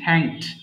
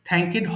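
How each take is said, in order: First: The final d follows the k directly. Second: An extra vowel comes before the final d. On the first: The speaker calls it right. "এটা হবে কি থ্যাঙ্কড" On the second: The speaker calls it wrong. "থ্যাঙ্কেড হবে না"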